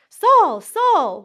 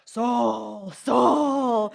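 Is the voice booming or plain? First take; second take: plain; booming. First: It is said in a plain reading voice. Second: It is said in a frightening, booming voice.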